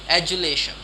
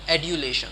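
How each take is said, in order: First: The middle consonant is a J sound. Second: The middle consonant is a D sound. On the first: "if I was to go with American pronunciation" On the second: "if it is British pronunciation, it might go"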